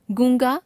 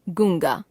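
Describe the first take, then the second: First: गूंगा with the pitch rising; गूंगा left hanging on a rise; error example, rising. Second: गूंगा lower, falling; corrected form, falling. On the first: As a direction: lift the end of गूंगा. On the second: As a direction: close off गूंगा with a fall. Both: Shown as a demonstration. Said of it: "अनुस्वार और अनुनासिक संबंधी अशुद्धियां".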